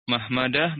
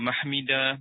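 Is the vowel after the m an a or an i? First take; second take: a; i. First: The vowel after the m is a. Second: The vowel after the m is i. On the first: "itu boleh dengan fathah juga" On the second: "Tadi kan ada mahmidah"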